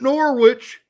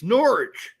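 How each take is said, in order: First: Norwich is said with an American pronunciation. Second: Norwich is said with an English pronunciation. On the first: The speaker calls it wrong. "it ain't Norwich" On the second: The speaker calls it right. "it's Norwich"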